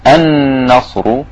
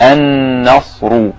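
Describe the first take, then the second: First: النصر with the doubled ن hummed through the nose; nasal ghunna. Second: النصر slow, nasal ن and a heavy ر at the end. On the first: Teacher shows the nasal hum in النصر. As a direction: hum the نّ of النصر for two counts. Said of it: "الغنة صوت من الأنف". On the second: Teacher repeats النصر, now with the heavy ر. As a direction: thicken the ر in النصر. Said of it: "والراء مفخمة لأنها مضمومة". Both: Shown as a demonstration.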